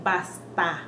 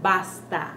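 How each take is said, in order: Both takes have the same delivery.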